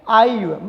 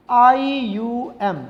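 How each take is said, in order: First: Said in the usual way. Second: आईयूएम letter by letter, very slowly; spelled out slowly. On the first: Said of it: "क्या लगाएंगे?". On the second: Shown as a demonstration. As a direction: draw out each letter, I, U, M. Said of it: "कौन सा suffix लगाएंगे". (आईयूएम एक-एक अक्षर खींचकर)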